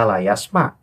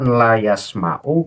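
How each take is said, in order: First: The word ends abruptly without the final vowel. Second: The word ends with a final u vowel. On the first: The speaker calls it wrong. "kemudian dibaca layasma" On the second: The speaker calls it right. "Bacaan layasma'u"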